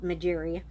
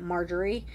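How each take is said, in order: First: The name is said as Majiri, not Marjorie. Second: The name sounds like the common name Marjorie. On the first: The speaker calls it right. "but it's clearly spelled Majiri" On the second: The speaker calls it wrong. "At first, I wanted to pronounce it Marjorie"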